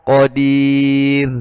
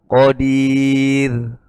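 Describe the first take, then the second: The two takes are said the same way.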